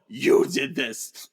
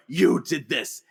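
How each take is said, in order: First: Drawn-out, very slow you did this; slow accusation. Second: Said in the usual way. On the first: Retold or imitated. Xavier turning the blame back on Eric, slow accusation. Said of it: "But Xavier says". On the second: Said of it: "Nito blames Moira".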